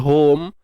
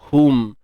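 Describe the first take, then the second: First: The vowel is an open 'oh' sound. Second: The vowel is a firm, close 'oo' sound. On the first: The speaker calls it wrong. "elakkan bunyi home" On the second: The speaker calls it right. "pegang betul-betul bunyi dia"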